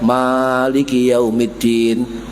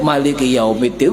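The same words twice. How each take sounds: First: The first vowel of Maliki is drawn out long. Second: The first vowel of Maliki is kept short. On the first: "Rakaat pertama dawa" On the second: "rakaat kedua pendek"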